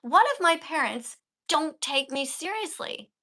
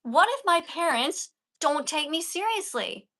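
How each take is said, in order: First: Slow, with a long pause held mid-sentence. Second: Slow reading with a pause after if. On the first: Teacher repeating the line to show how long to pause. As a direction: let the silence speak before going on. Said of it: "look how long I pause". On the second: Teacher demonstrating a dramatic pause to the student. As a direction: hold a pause and let it sink in. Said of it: "You can pause there". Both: Shown as a demonstration.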